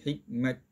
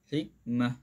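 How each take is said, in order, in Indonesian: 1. Kata ini berakhir dengan bunyi t. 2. Kata ini berakhir dengan bunyi h. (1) "Jangan kita berhenti hikmat. Ha, salah" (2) "Kalau kita berhenti"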